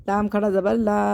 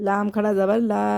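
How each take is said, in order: Both takes have the same delivery.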